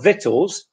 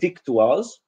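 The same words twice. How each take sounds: First: It is pronounced the English way. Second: It is pronounced the Polish-learner way. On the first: The speaker calls it right. "instead of victuals" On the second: The speaker calls it wrong. "if you pronounce the word victuals, which is very likely, I've heard it many times from Polish students"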